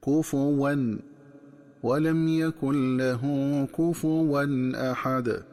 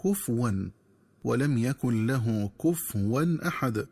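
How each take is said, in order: First: "كفوا" said "kufuwan" with u on the fa; slow chanted recitation, fa with damma; بضم الفاء. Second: "كفوا" said "kufwan" with silent fa, as the wrong reading; slow demo of the mistaken sukun; تسكين الفاء خطأ. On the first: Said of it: "تقرأ بضم الفاء هكذا". (كفوا بضم الفاء في تلاوة بطيئة) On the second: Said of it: "ومن الخطأ قراءتها بتسكين الفاء". (كفوا بتسكين الفاء، نطق خاطئ) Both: Shown as a demonstration.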